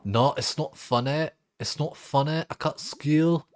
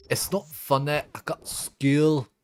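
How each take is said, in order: First: High put-on kid voice, faster; quoting viral video. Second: High slow put-on kid voice; quoting viral video. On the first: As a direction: repeat the video line quickly. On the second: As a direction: mimic the video kid, drawn out. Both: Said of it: "I love that fucking video".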